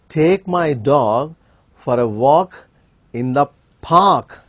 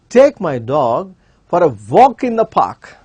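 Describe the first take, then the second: First: The stress is on park. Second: The stress is on walk.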